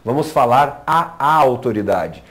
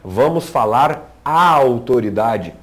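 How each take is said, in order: First: The a sound before autoridade is doubled. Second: The a sound before autoridade is single. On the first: The speaker calls it wrong. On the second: The speaker calls it right.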